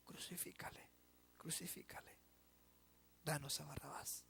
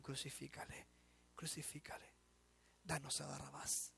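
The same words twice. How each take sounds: First: Unvoiced whisper, much softer; susurro siniestro. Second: Hushed, whispered crowd chant, much softer; multitud susurrando. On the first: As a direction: breathe the mob's verdict. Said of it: "para decir". (susurro de la multitud que condena) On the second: Retold or imitated. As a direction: whisper the mob's demand ominously. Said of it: "la multitud puede estar gritando". (la multitud que exige en susurros)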